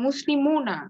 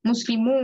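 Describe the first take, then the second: First: মুসলিমুনা ending on "-muuna"; full form with noon. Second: মুসলিমু ending on long "muu"; noon dropped. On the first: Teacher reads the form before dropping noon, n pronounced. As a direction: sound the n in মুসলিমুনা. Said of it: "এখানেও নুন উচ্চারণ হবে না". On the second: Teacher shows noon not pronounced, long u. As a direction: hold the open u of মুসলিমু, no n. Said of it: "নুন উচ্চারণ হবে না". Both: Shown as a demonstration.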